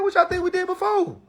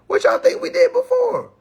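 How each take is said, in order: First: Mock retort. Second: Much higher, louder mocking question; bigger mock retort. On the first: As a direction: toss it back at them, teasing. Mocking the people he quotes. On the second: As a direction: push the tease even harder. Repeats the retort after laughing.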